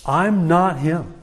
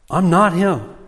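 First: "I'm not him" said slowly, each word weighted; a deliberate, measured denial; firm slow denial. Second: "not" in "I'm not him" pushed up and leaned on; stress on not. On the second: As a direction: hit the word "not" as a flat refusal. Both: Retold or imitated. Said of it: "as strong as he can say it".

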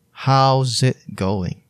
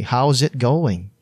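First: How's it going said slowly with each word drawn out; slow careful repeat for learners; slow drawn-out model phrase. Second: Said in the usual way. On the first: Shown as a demonstration. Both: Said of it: "you can say".

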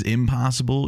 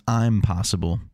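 First: Said in the usual way. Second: IMPOSSIBLE reread as "I'm possible"; split into two words. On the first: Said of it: "when you spell it out". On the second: Shown as a demonstration. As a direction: open with a clear "I'm", then "possible". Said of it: "it really spells".

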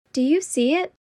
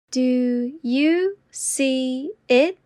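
First: Said in the usual way. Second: Very slow and deliberate. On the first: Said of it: "repetition drill, normal take". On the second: Shown as a demonstration. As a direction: stretch each word out. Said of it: "repetition drill, slowed take".

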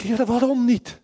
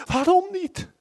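First: Luid en hoger, smekend vragen; wanhopige uitroep. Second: Veel hoger en luid, bijna schreeuwend; wanhopige kreet. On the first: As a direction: roep het uit naar God, niet begrijpend. Crying out to God in despair. (luide wanhopige vraag aan God) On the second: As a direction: laat de vraag uitbarsten naar de hemel. Repeated cry, even higher. (hoge luide kreet naar God) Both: Retold or imitated.

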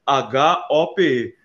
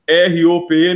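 First: Slow "H O P E", each letter set apart to correct; "H O P E" spelled slowly and clearly, the right version. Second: Loud "R O P E" spelled out, the mistaken version; spelled wrong. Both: Shown as a demonstration. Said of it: "não".

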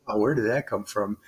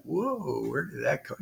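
First: Said in the usual way. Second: A hushed, softer stunned whoa, lightly retold. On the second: Trainee hearing the proctor knew, softer hushed surprise. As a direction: murmur it softer, caught off guard.

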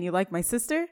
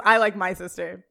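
First: "You like my sister?" lifting into a question at the end; rising question. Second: "I like my sister" stated firmly, with "I" leading; corrected statement. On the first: Frankie turning round to challenge Joey, questioning rise on "sister". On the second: Frankie answering Joey, "I like my sister" as a firm statement. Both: Retold or imitated. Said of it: "Oh, no, he says".

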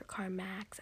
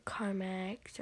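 First: Carmax, last syllable said "max". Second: Carmex, last syllable said "mex". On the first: Vlogger unsure of the brand name, trying Carmax with "max". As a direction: say Carmax to rhyme with "tracks". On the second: Vlogger unsure of the brand name, trying Carmex with "mex". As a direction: say Carmex to rhyme with "necks". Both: Shown as a demonstration. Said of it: "I don't know how to say it".

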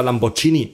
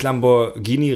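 First: Lamborghini Germanized, lam-bor-gini; German pronunciation. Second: Lamborghini with Italian hard g, lam-bor-GEE-nee; Italian pronunciation. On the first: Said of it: "die Deutschen sagen ja immer". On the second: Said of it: "er spricht Lamborghini richtig aus". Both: Shown as a demonstration.

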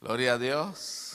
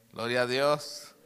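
Both takes have the same delivery.

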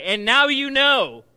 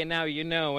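First: Big, high, drawn-out cartoon catchphrase; oomph and excitement. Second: Said in the usual way. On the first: Shown as a demonstration. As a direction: call it out loud to rally a crowd. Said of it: "say it with some oomph and excitement". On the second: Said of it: "I might say".

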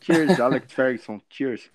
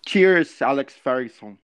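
First: Slow, deliberate English cheers; slow English toast. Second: Quick cheery toast in English; English shout-out. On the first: (brinde lento em inglês) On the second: (saudação rápida em inglês) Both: Pretend. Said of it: "Manda um salve pra ele em inglês aí".

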